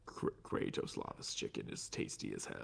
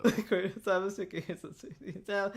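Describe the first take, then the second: First: Low, breathy sinister voice; low villain voice. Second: Quiet laugh through the words. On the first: Acted. Repeating line in villain voice. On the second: Real, not acted. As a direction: giggle the line out. Repeating line laughing.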